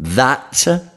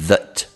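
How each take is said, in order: First: The vowel is a full open sound. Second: The vowel is reduced to a schwa. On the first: The word comes first. "prima parola" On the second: The word sits in the middle of a sentence. "se that è in mezzo della frase"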